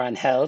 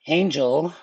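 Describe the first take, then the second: First: "Angel" the Spanish way, ahn-HEL; Spanish pronunciation. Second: "Angel" the English way, AYN-jel; English pronunciation. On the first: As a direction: say "Angel" with h for g, stressed last. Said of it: "depending on where you're from". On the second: Gives English, then Spanish pronunciation. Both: Shown as a demonstration.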